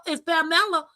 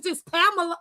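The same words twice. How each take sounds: First: "Pamela" corrected to pa-MELL-a; Spanish-style pronunciation. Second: "Pamela" said PAM-uh-luh; English pronunciation. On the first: Explaining the Spanish name to mama, "Pamela" as pa-MELL-a. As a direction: stress the middle of "Pamela", pa-MELL-a. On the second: Explaining her name to mama, "Pamela" as PAM-uh-luh. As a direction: stress the first syllable of "Pamela", PAM-uh-luh. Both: Retold or imitated. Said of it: "in Spanish".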